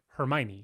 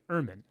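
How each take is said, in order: First: The name starts with an H sound. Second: The name starts with a vowel sound. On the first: The name is read the way it is spelled. "I want to say" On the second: The name is said the way the people around her say it. "They take the H off and they take the E off"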